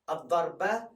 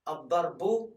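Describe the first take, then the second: First: The word ends with an a vowel. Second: The word ends with a u vowel. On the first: "You don't say a, u, e" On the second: "You don't say a, u, e"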